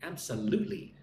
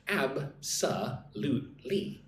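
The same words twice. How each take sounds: First: Said in the usual way. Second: "Ab-sa-lute-ly" broken into four slow, separate syllables. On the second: Shown as a demonstration. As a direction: say "Ab-sa-lute-ly" slowly, pausing after each syllable. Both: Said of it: "Look at the word absolutely".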